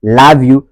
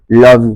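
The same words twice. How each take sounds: First: LOVE as "lahv" in a Ghanaian accent. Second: LOVE as "lawv" in a Nigerian accent. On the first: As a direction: open the vowel of love, Ghanaian style. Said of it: "du côté ghanéen". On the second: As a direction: round the vowel of love, Nigerian style. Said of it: "c'est au niveau de la prononciation". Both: Shown as a demonstration.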